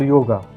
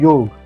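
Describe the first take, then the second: First: The word ends with an added vowel sound. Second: The word ends on a consonant sound. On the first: This is how foreigners say it. The speaker calls it wrong. "for foreigners, because of we add a" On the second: This is how it is said in India. The speaker calls it right. "this is yog"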